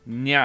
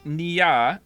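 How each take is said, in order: First: The name has one syllable, without the ee sound. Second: The name has two syllables, with an ee sound. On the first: The speaker calls it right. "so it's just Nya" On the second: The speaker calls it wrong. "So I'm saying Nia"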